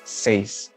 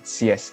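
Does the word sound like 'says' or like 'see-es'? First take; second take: says; see-es. First: The vowels blend into one 'say' sound. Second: The vowels sound like 'see-es', in two parts. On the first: The speaker calls it right. "it's seis" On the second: The speaker calls it wrong. "six is not sies"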